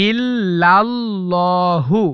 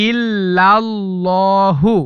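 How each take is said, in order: The two takes are said the same way.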